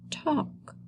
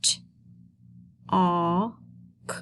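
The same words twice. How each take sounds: First: Said in the usual way. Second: "T", "aw", "k" as three isolated sounds; sounding out. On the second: Shown as a demonstration. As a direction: say "T", pause, "aw", pause, "k". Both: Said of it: "Let's sound these words out together".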